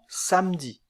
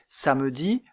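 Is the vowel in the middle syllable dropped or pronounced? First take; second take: dropped; pronounced. First: The middle vowel is dropped entirely. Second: The middle vowel is clearly pronounced. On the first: "La voyelle peut ne pas être prononcée" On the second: "La voyelle peut ne pas être prononcée"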